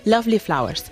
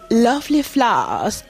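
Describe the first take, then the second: First: It is said in a neutral, unmarked English accent. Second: It is said in a marked, conservative RP accent. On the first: "que no tenga acento RP" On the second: "con acento marcado RP ... conservador"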